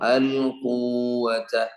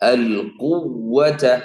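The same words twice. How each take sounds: First: The doubled consonant is unstressed and the vowel is lengthened. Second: The doubled consonant is pressed with extra stress. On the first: The speaker calls it wrong. "ശബ്ദു മാറി മദ്ദ" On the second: The speaker calls it right. "ഒച്ച കൂടിയ പ്രസ് ചെയ്യുമ്പോ ശബ്ദ വ്യക്തമായി"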